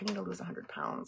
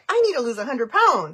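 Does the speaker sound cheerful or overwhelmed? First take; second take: overwhelmed; cheerful. First: The voice sounds heavy and overwhelmed. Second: The voice sounds light and cheerful. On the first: The goal feels far too big. "Like, oh my gosh, that's so much" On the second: The goal feels easy to reach. "you never say it like"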